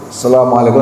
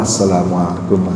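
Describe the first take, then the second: First: The greeting is said loudly. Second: The greeting is said softly. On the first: This is the first closing greeting. "salam pertama kencang" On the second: This is the second closing greeting.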